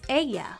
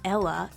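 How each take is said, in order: First: The middle sound is said like a Y. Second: The middle sound is said like an L. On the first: The speaker calls it right. "the double L is pronounced like a Y" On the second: The speaker calls it wrong. "it's not ella"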